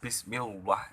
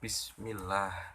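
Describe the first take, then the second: First: The L sound is thick and heavy. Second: The L sound is thin and light. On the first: The speaker calls it wrong. "nggak boleh dibaca ... Itu tebal berarti" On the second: The speaker calls it right. "harus dibaca tipis"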